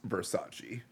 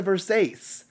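First: Versace said as "ver-SAH-chee"; correct pronunciation of Versace. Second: Versace said as "ver-SAYCE"; mispronounced Versace. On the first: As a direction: say Versace in three syllables, ending in "chee". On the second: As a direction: say Versace to rhyme with "face", last vowel dropped. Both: Retold or imitated. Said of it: "It's pronounced Versace".

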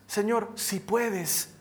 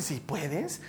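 First: Slow, drawn-out appeal from a father; hesitant plea. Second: Soft, low, rising query; questioning echo. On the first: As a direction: plead slowly, unsure of the answer. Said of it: "Jesús habla con el padre del muchacho". (súplica lenta y vacilante de un padre) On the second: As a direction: echo it back quietly as a question. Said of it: "Y Jesús le dice". (eco en voz baja, como pregunta) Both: Acted.

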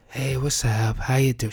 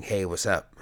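First: Higher, slightly mock grieving mom; a light take on mom's phone greeting; imitating mom. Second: Said in the usual way. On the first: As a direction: say Hey, what's up? higher, as his mom. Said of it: "She's got this voice that she does when she's grieving". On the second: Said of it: "She's got this voice that she does".

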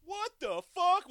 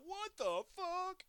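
First: A slow, drawn-out mock yell, higher and louder. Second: Slow, much higher, drawn-out yell; imitated offscreen yell. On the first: Podcaster imitating a shocked offscreen bystander, yelling. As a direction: belt it out like a stunned passerby. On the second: Podcaster quoting the offscreen guy, mock yell. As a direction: stretch it out like a shocked bystander. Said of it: "you hear him off screen".

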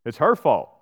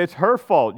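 First: Said in the usual way. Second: Higher and louder, pointing the finger; it's HER fault, pushed up high; indignant, defensive finger-pointing; heated blaming. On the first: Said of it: "He says". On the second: Acted. Adam blaming, heated retelling.

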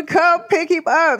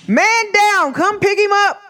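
First: Said in the usual way. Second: Mock call for help.

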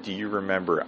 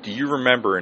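First: Said in the usual way. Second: Mimicking buddy. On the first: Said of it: "as soon as he said". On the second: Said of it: "It's like".

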